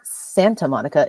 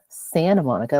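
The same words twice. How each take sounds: First: The T in Santa is clearly pronounced. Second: The T in Santa is dropped entirely. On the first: The speaker calls it wrong. "It is not" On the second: The speaker calls it right. "like with two N's"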